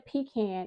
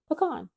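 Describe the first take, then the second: First: It sounds like 'pee' followed by 'can'. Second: It does not sound like 'pee can'. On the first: This is a pronunciation the speaker did not grow up with. "a pecan is a can of peas" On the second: This is the pronunciation used in the speaker's family. "I grew up saying pecan"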